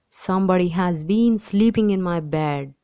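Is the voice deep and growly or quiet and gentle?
deep growly. It is said in a deep, growly voice.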